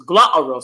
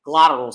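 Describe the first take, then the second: First: "glottal" with the t swallowed; British glottal stop in "glottal". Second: Said in the usual way. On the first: Shown as a demonstration. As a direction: say "glottal" with a catch in place of the tt. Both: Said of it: "those glottal sounds".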